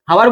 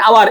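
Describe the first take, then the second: First: "হাওয়ার" with an h at the start; "হাওয়ার", h before the open vowel; wrongly sounded H. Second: "আবার" begun on the open vowel, no h; "আবার", vowel first for English hour; silent H. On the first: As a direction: voice the H of hour in "হাওয়ার". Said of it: "হাওয়ার বলো না". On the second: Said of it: "তোমাকে যদি বলি যে আবার". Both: Shown as a demonstration.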